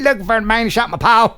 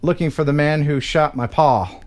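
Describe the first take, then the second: First: It is said in a put-on accent. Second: It is said in the speaker's ordinary voice. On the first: The speaker calls it right. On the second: The speaker calls it wrong.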